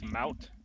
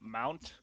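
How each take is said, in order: First: The word is said without an n sound. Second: The word is said with an n sound. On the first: The speaker calls it right. "it's mount, ... there is no N" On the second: The speaker calls it wrong. "not mount ... a lot of people mispronounce it"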